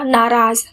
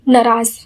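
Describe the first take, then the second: First: Both syllables have a long aa vowel. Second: The vowels are said short, not drawn out. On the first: The speaker calls it right. "ना में भी आ है और रा में भी आ है" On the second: The speaker calls it wrong. "जो कि गलत है"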